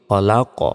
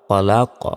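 First: The final consonant ends with a bouncing echo. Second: The same.

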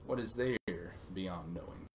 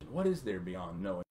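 First: It is said with a statement tune. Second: It is said with a questioning tune. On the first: It is not asking for an answer. The speaker calls it right. "But it's not a question" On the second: It asks for an answer. The speaker calls it wrong. "I read it as a question"

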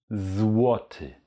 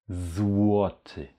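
The two takes are said the same way.

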